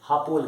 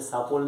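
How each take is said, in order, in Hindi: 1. यह शब्द h ध्वनि से शुरू होता है। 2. यह शब्द s ध्वनि से शुरू होता है। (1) "हम उसे हापोल कहते हैं" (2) "हम उसे सापोल नहीं कहेंगे"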